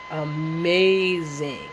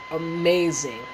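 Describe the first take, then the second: First: AMAZING stretched very slowly, the middle held long; drawn-out emphasis. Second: Said in the usual way. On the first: Real, not acted. Gushing over her looks at work, "amazing" drawn out slowly. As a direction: linger on "amazing", drawing it right out.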